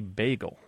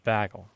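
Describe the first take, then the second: First: The first vowel sounds like the vowel in 'bay'. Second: The first vowel sounds like the vowel in 'bag'. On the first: "there is a part of the country that does not say bagel" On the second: "They say bagel"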